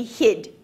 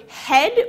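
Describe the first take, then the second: First: "hid" for head, with a short i; New Zealand "hid" in place of head; New Zealand vowel. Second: Said in the usual way. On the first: Shown as a demonstration. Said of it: "New Zealand English has an ongoing change". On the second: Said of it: "vowel in e sounds more like I".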